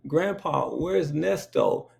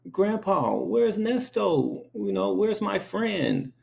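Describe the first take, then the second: First: Put-on a lightly raised, slow kid voice; a hint of a small child asking; little child asking. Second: Put-on high, slow, pleading little kid voice; little child asking. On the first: Child at the dinner table asking grandpa, lightly raised kid voice. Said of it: "I was like". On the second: Small child asking grandpa about her cow, high and slow. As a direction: ask like a worried three-year-old. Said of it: "I'm like".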